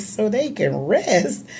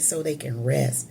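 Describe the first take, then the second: First: Retold slow questioning echo of "So they can rest", higher and rising in doubt; puzzled echo. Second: Said in the usual way. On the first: Daughter echoing father's words to the room, puzzled. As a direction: repeat "So they can rest" back slowly, baffled. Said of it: "I said". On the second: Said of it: "He said".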